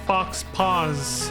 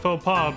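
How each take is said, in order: First: The final x and s sounds are pronounced. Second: The final x and s sounds are silent.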